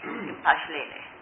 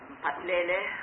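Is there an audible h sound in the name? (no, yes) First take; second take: yes; no. First: The name is said with an h sound. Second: The name is said without an h sound. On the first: The speaker calls it right. "it's got an H. ... That's better" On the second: The speaker calls it wrong. "I'm sure I'm pronouncing that wrong"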